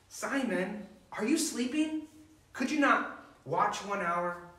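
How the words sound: It is said in an intense, harsh tone.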